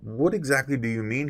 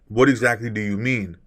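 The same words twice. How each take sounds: First: It sounds soft, lower and curious. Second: It sounds sharp, defensive and challenging. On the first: The speaker genuinely wants to understand. The speaker calls it right. "Notice how I lowered my tonality and I'm coming more from a curious state of mind" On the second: The listener is being confronted. The speaker calls it wrong. "That's kind of defensive. That's kind of challenging"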